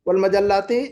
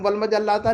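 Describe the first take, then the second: First: The word ends with an 'i' vowel. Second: The word ends with an 'a' vowel. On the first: The speaker calls it right. "मंसूब वल मजल्लाती पढ़ेंगे" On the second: The speaker calls it wrong. "वल मजल्लाता नहीं पढ़ेंगे"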